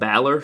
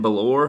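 First: The first vowel is an open 'ah' sound. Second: The first vowel is not an 'ah' sound. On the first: The speaker calls it right. "does make it ah, like Balor" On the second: The speaker calls it wrong. "so it's not Finn Balor or Finn Balor"

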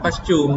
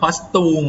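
First: It has the standard English pronunciation. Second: It has a typical Thai-style mispronunciation. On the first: The speaker calls it right. "อ่านว่า" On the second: The speaker calls it wrong. "อย่าเป็น ... ไม่เอานะครับ ... คนไทยออกเสียงผิด"

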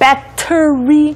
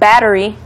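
First: The middle consonant sounds like a clear T. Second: The middle consonant sounds like a soft D. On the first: "instead of battery" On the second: "D, like a D sound"

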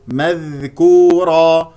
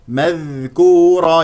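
Both takes have the same delivery.

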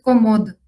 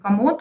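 First: Both vowels are the same clear 'o'. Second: The first vowel is reduced toward 'a'. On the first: "то есть одинаково абсолютно, что первое, что второе" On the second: "у нас в первом слоге такой призвук «а» присутствует, а в ударном слоге получается «о» четко"

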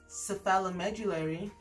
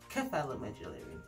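First: The word begins with an S sound. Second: The word begins with a K sound. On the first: This is the American pronunciation. "And also in the US" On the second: This is the British pronunciation. "is pronounced in the UK as"

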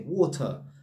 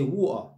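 First: The T is clearly pronounced, posh style. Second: The T is dropped, London style.

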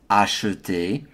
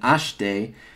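First: The middle E vowel is clearly pronounced. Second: The middle E vowel is dropped. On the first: "I'm going to pronounce that as acheter" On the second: "rather than acheter"

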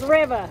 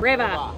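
First: It is said with a New York-sounding accent. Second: It is said with a Boston-sounding accent.

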